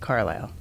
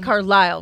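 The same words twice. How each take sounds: First: The stress is on the first syllable. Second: The stress is on the last syllable. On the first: "whereas I would say" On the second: "with this emphasis on the last syllable"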